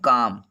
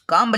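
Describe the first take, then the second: First: The final b sound is left silent. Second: A b sound is pronounced at the end. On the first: The speaker calls it right. "लेकिन उसको पढ़ेंगे काम" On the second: The speaker calls it wrong. "काम्ब लिखा"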